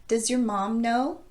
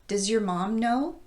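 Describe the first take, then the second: No difference in how they are said.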